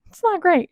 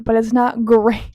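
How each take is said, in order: First: Not hit higher and louder, falling off; stress on not. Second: Light laugh on great. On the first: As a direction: punch not, let great drop. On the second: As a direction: chuckle breaks into great. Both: Real, not acted.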